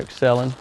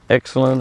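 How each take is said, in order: First: "Excelin" with the weight on CEL; "Excelin" stressed on its middle syllable; second-syllable stress. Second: "Excelin" with the weight on EX; "Excelin" stressed on its first syllable. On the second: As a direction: say "Excelin" as EX-celin, stress up front. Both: Shown as a demonstration. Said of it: "emphasis on those words".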